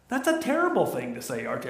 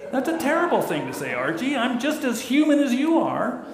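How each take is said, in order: First: Lightly voiced hurt wife; Edith Bunker voice. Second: Much higher, fast protesting wife; Edith Bunker voice. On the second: Retold or imitated. Wife Edith protests to Archie, much higher and fast. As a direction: squeak it out like Edith. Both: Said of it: "I wish I could do her voice".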